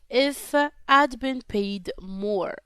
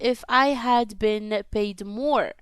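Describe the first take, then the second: First: I had is shortened to one word. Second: I had is said as two full words.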